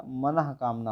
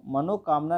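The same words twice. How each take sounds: First: मनः कामना with breathed h after mana; correct form. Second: मनोकामना joined with an o, mano-kaamna; wrong form. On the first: Teacher gives students the corrected word, correct form. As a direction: say मनः कामना as manah, then kaamna. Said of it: "मनः कामना होता है". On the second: Teacher rejects the option for students, wrong form. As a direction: say मनोकामना as one word with mano. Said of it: "मनोकामना नहीं होता". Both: Shown as a demonstration.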